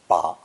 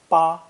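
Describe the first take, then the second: First: The pitch dips low, then comes up. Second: The pitch stays high and level. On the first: To grasp something. "with a low dipping tone" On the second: The number eight. "spoken with a high flat tone"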